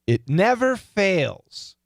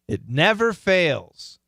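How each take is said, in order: First: The strong words are hit hard and loud. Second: The unimportant words are said very softly. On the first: "we're going to hit the strong words hard" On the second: "I'm going to really go soft on the unimportant words"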